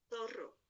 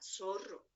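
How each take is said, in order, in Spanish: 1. El primer sonido es una th ceceante. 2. El primer sonido es una s normal. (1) "Porque para norma, zorro" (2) "la norma es ceseante, o sea"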